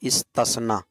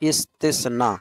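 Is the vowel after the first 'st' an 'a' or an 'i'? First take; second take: a; i. First: The vowel after the first 'st' is 'a'. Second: The vowel after the first 'st' is 'i'. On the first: The speaker calls it wrong. "इस्तस्ना जबर के साथ गलत हो जाएगा, इस्तस्ना गलत है" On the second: The speaker calls it right. "ता पर जेर है, इस्तिस्ना सही है"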